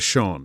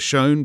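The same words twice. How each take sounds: First: Shone is said the British way, rhyming with 'on'. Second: Shone is said the American way, rhyming with 'own'. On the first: "but in the old country" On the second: "In the New World"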